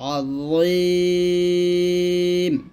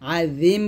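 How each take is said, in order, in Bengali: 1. z ধ্বনিটি ভারী ও মোটা। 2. z ধ্বনিটি হালকা ও পাতলা। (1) "এটা য মোটো হবে" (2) "আজিম বলবেন না"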